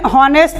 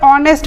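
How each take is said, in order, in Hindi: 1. शब्द की शुरुआत h ध्वनि से होती है। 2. शब्द की शुरुआत एक स्वर से होती है, इसमें h नहीं है। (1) "हम इसे हॉनेस्ट नहीं पढ़ते" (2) "हम इसे ऑनेस्ट पढ़ते हैं"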